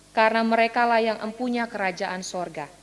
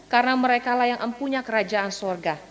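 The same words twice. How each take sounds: Both takes have the same delivery.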